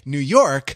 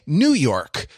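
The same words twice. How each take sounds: First: The stress falls on the second word. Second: The stress falls on the first word. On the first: It is York, not another new place. The speaker calls it right. "You say New York to distinguish it from New Jersey and New Hampshire" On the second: It is the new York, not the old one. The speaker calls it wrong. "you don't say New York to distinguish it from Old York"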